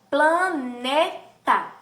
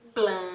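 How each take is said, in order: First: "planeta" stretched slowly, each syllable apart. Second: "planeta" said quickly, while counting syllables on fingers. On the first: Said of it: "na palavra, ó". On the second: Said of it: "contando com os dedinhos". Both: Shown as a demonstration.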